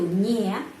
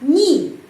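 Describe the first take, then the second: First: The word ends in an open 'eh' vowel. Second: The word ends in a reduced 'ee' vowel. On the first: "tidak itu nye, ny, dua huruf" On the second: "pengucapannya biasanya ni"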